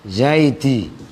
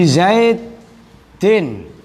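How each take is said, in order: First: The word ends on an open vowel. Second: The word ends with an n sound. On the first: The word is read at a stop. "itu menjadi zaid zaidi" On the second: The word is read on, not at a stop. "kasroh dan tanwin"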